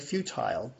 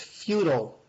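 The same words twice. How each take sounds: First: It is pronounced in a British way. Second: It is pronounced in an American way.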